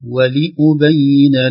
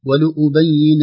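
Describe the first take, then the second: First: The i vowel is clear and pure. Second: The i vowel is coloured toward u. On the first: The speaker calls it right. "لكن ينبغي أن نقول ولأبين" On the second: The speaker calls it wrong. "ستخرج مع الكسرة شيء من الضم أو أقل شيء شيء من السكون"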